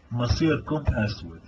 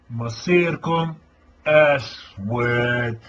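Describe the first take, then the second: First: Said in the usual way. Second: Each word dragged out, heavy and ominous; slow menacing threat. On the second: Real, not acted. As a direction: draw out مصيركم then land أسود. Threat repeated slowly, drawn out. (تهديد ببطء شديد)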